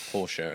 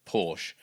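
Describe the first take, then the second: First: "Porsche" with the final e sounded as "uh"; "POR-shuh", the German-style pronunciation of "Porsche"; two-syllable Porsche. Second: "Porsche" with the final e left silent; the casual "porsh" pronunciation of "Porsche"; one-syllable Porsche. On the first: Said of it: "as it's connect-, correctly pronounced". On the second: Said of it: "or Porsche as it's connect-, correctly pronounced". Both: Shown as a demonstration.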